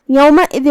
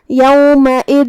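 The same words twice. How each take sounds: First: Said in the usual way. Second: یومئذ slow, final tanween hidden in a held nasal hum; ikhfa. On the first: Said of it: "تو ہم یہ حکم کو ایسے". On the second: Shown as a demonstration. Teacher demonstrating ikhfa, یومئذ slowly with a hummed ending. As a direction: recite یومئذ, drawing out the closing hidden n. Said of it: "تو ہم یہ حکم کو ایسے ادا کریں گے".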